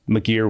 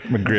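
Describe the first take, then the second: First: There is no R sound after 'Mc'. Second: An R sound follows 'Mc' in the name. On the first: The speaker calls it right. "It's McGeer with no R" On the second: The speaker calls it wrong. "I hear everybody says McGreer"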